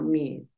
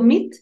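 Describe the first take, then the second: First: The vowel is said a bit longer. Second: The vowel is said short. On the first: The speaker calls it right. "Una lar- un pedacito más largo" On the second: The speaker calls it wrong. "No es tanto mit"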